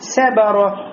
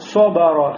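First: The first consonant and the b are both thin. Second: The first consonant and the b are both thick. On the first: "«сот» станет тонким и превратится в «син»" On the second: "«бе» станет широким"

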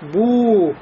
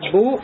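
First: The vowel is held long. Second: The vowel is short.

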